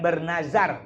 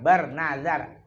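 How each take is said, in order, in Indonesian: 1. Konsonannya bunyi z biasa, seperti bahasa Indonesia. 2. Konsonannya diucapkan dengan bunyi Arab.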